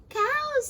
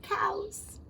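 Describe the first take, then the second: First: "Cows," burst out much higher and louder; excited. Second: Said in the usual way. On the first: Acted. Frog dazzling the fish with wonders: excited cry. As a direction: announce "Cows," like a marvel.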